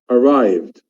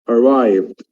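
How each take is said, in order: No difference in how they are said.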